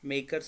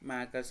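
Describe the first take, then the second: First: The first vowel sounds like 'may'. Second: The first vowel sounds like 'mat'. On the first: "some people say మేకర్స్ మేకర్స్ అంటారు" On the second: "కొంతమంది మ్యాకర్స్ అంటారు"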